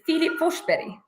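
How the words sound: The name is pronounced the Swedish way. "in Swedish, the pronunciation is"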